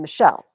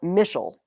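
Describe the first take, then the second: First: The stress is on the second syllable. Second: The stress is on the first syllable. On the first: The speaker calls it right. "My second syllable is stressed" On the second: The speaker calls it wrong. "I'm not Michelle"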